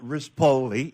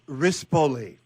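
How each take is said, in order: First: The stress falls on a later syllable. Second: The stress falls on the first syllable. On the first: The speaker calls it wrong. "not Rispoli" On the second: The speaker calls it right. "It's Risp"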